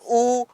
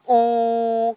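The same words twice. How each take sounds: First: The vowel is short, held one beat. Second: The vowel is very long, held three beats. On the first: "सबसे पहले हमने बोला ऊ यानी कि ये है ह्रस्व" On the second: "अंत में जो हमने बोला ऊ ये है प्लुत"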